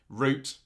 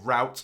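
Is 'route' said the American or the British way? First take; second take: British; American. First: The word is said the British way. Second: The word is said the American way.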